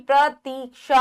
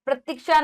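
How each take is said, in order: First: प्रतीक्षा as 'pra-teek-sha'; syllable by syllable प्रतीक्षा with held ee; long ee. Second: प्रतीक्षा as 'pra-tik-sha'; quick wrong short vowel in प्रतीक्षा. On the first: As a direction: stretch the 'tee' in प्रतीक्षा. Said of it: "ई बड़ी". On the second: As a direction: clip the 'ti' in प्रतीक्षा. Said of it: "प्रतीक्षा नहीं". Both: Shown as a demonstration.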